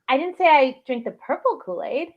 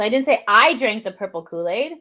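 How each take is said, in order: First: The emphasis falls on the word purple. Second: The emphasis falls on the word I. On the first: A different color was drunk. "You drank a different color Kool-Aid" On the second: Someone else did it. "you're saying somebody else did it"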